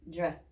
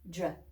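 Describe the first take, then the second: No difference in how they are said.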